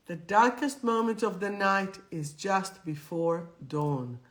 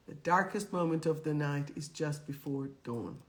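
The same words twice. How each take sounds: First: Darkest gestressed, full voice; stress on darkest. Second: Softer repeat. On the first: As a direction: lean on darkest, say it clearly. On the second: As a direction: lower and softer, darkest still leaned on. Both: Shown as a demonstration. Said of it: "remember this one".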